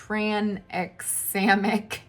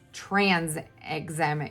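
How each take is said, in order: First: The word begins with a 'tran' sound. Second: The word begins with a 'trans' sound. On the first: The speaker calls it right. "No, it's tranexamic acid" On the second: The speaker calls it wrong. "I always want to call it tran"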